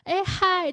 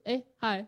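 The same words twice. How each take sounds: First: The greeting sounds open, bright and lively. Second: The greeting sounds plain, flat and unexcited.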